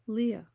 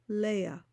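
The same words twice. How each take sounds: First: The name is pronounced with English sounds. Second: The name is pronounced with Hebrew sounds.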